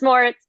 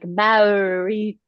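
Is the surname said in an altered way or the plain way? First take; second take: plain; altered. First: The surname is said with its plain sounds. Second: The surname is said with altered sounds. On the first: The speaker calls it right. "nope, it's just Moritz" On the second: The speaker calls it wrong. "A lot of people like butcher it and they're like Maurits or something"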